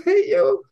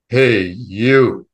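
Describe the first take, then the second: First: High, loud child imitating the voice; four-and-a-half-year-old. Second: Booming male voice. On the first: Small child mimics the voice for Mom, high and loud. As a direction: mimic a booming call in a squeaky kid voice. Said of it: "imagine a four and a half year old". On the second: Retold or imitated. Unseen voice calls to a child at the window, booming. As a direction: boom it out like an all-powerful voice. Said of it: "this booming male voice".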